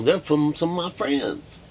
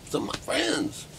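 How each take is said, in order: First: Said in the usual way. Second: Much higher, softer sly repeat of the phrase; mock high aside. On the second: Teasing the audience, a mock high-pitched aside. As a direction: toss it off in a teasing falsetto.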